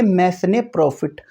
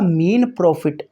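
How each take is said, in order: First: The word is said with an audible s sound. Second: The word is said with no s sound. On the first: The speaker calls it wrong. "बहुत सारे student इसको गलत पढ़ते हैं" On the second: The speaker calls it right. "इसमें एस silent रहता है"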